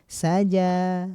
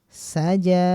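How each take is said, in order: The two takes are said the same way.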